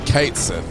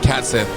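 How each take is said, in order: First: The first syllable does not sound like cat. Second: The first syllable sounds like the word cat. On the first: "it's actually Katesith" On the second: "some people say Catsith because he's a cat"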